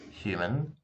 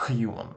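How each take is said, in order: First: Said in the usual way. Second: "human" with a really thick Russian harsh h; bad Russian accent. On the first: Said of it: "it's not just". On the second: Shown as a demonstration. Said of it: "if my accent was really bad".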